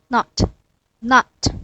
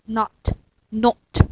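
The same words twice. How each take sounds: The two takes are said the same way.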